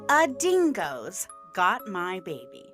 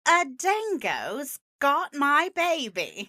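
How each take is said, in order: First: It is said in the speaker's ordinary accent. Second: It is said in a put-on Australian-style accent.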